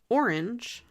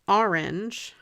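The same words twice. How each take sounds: First: Orange is said the standard way. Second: Orange is said the New Jersey way. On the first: "that's kind of the way I think it's supposed to be" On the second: "I used to say orange when I lived in Jersey"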